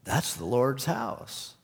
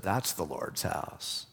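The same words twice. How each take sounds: First: Slow, hesitant, ending with a rise; unsure guy excusing himself; slow, timid answer from the embarrassed smoker; sheepish smoker. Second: Lower, softer, slow and deliberate; pointed correction, each word pressed home; firm rebuke. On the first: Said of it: "He said". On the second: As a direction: professor jabbing the smoker's chest, lower, softer and slow. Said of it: "put his finger in his chest and said". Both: Retold or imitated.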